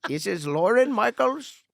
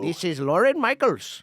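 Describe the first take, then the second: First: High, slow attempt at an Indian accent; retry the scam caller's Indian accent. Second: Higher put-on Indian accent. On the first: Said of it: "I can't do an Indian accent". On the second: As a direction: another go at the scam caller voice. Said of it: "That's not bad".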